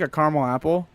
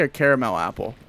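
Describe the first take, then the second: First: "caramel" shortened to CAR-mul; two-syllable CARAMEL. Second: "caramel" with three syllables, CARE-uh-mel. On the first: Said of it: "I'll say". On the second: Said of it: "I won't say". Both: Shown as a demonstration.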